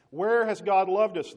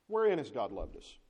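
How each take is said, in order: First: Loud, high, slow demand; indignant outcry. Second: Said in the usual way. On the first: Acted. Israel complaining to God, loud high indignant demand. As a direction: shout the grievance at God.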